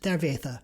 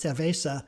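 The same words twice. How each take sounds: First: It uses a lisped th sound, Spanish style. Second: It uses a plain s sound, Latin American style.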